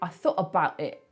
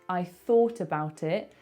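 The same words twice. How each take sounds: First: It has too many glottal stops throughout. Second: It has only a few glottal stops.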